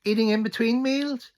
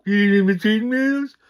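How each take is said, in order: First: High mocking cashier voice; a much higher put-on shop-lady voice; cashier quote. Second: High, loud indignant repeat; a loud, high, outraged mimic of the cashier; outraged echo. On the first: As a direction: squeak it out like a snooty cashier. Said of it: "turns around and says". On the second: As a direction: fire the question straight back, louder and higher. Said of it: "he goes".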